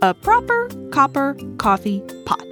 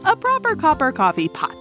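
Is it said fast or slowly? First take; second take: slowly; fast. First: It is said at a slow, easy pace. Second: It is said at a fast pace.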